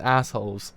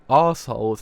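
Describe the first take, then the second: First: Said in the usual way. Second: "arseholes" with a long British "ar" vowel; British-accented "arseholes". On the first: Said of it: "you might hear me say arseholes and assholes". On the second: Shown as a demonstration. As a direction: say "arseholes" the British way, first vowel drawn open. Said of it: "how you say it in the British accent".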